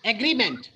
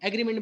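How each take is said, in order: First: agreement with the weight on green; stress on GREE. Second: agreement with the weight on the first syllable, the wrong way; wrong stress shown. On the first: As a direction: hit green in agreement firmly. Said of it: "emphasize on ग्री". (ग्री पर ज़ोर देकर agreement) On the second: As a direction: show the wrong flat agreement with a lead E. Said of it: "agreement नहीं है". (गलत उच्चारण agreement) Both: Shown as a demonstration.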